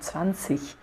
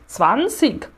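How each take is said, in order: First: The word ends with a soft ich sound. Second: The word ends with a hard g sound. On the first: "o alemão padrão, o alemão ali de Hannover, de Hamburg, né, que fala zwanzig" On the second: "ele tem G ali em cima e G no meio da palavra"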